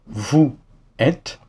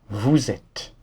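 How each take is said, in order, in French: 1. Vous et êtes se disent sans liaison en z. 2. Un son z relie vous à êtes. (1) "Prononce simplement vous êtes et ça sera déjà acceptable" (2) "tu peux faire la liaison entre vous et êtes"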